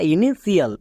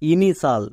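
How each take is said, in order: First: The middle is said with sh plus extra syllable. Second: The ending is one syllable with sh: shal. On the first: The speaker calls it wrong. "একে অনেকে ভুল করে উচ্চারণ করে" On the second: The speaker calls it right. "কিন্তু এর উচ্চারণ হবে ইনিশাল"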